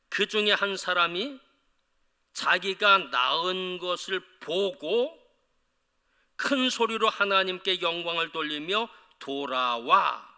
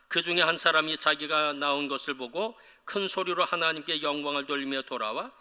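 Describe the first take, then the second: First: The passage is read slowly and deliberately. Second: The passage is read at a normal pace.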